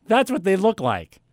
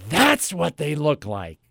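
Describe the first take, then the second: First: Imitated clerk, higher and quick; clerk's brief remark. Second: Slow, drawn-out echo of the remark; mock realisation. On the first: Store clerk pointing out display phone, higher brisk remark. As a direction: toss it out as passing information. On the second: Customer echoing clerk's obvious tip, slow mock wonder. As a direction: feign wonder at the obvious, slowly.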